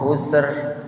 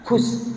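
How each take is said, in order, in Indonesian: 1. Kata ini berakhir dengan bunyi r yang jelas. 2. Kata ini tidak berakhir dengan bunyi r. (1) "Yang benar husr ya" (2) "selama ini kita baca"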